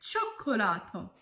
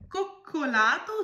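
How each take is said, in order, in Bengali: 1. প্রথম ধ্বনিটি হলো নরম ch ধ্বনি। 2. প্রথম ধ্বনিটি হলো শক্ত k ধ্বনি। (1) "এটা হবে চকোলাতো" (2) "কোকোলাতো উচ্চারণ করলেন"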